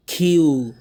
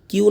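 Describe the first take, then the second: First: Q said loud and long as "khyoo"; aspirated Q. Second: Q said wrongly as short plain "kiu"; unaspirated Q. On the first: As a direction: puff the k, stretch "oo" in Q. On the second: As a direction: clip "kiu" with no puff. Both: Shown as a demonstration. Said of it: "কিউ না কিন্তু".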